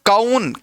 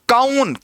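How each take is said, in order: First: The vowel is split into 'a' then 'oo'. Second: The same.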